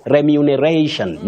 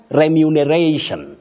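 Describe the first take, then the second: First: The second syllable sounds like 'mu'. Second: The same.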